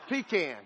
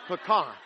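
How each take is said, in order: First: "Pecan" as PEE-can, stress on the first syllable with a flat a; pecan said the pastor's way. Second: "Pecan" as puh-KAHN, stress on the second syllable; pecan said the Louisiana way. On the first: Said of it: "I say pecan". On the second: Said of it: "You say pecan". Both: Shown as a demonstration.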